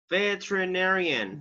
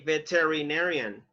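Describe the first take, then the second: First: The vowel after the first t is dropped. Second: The vowel after the first t is pronounced. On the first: The speaker calls it right. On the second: The speaker calls it wrong.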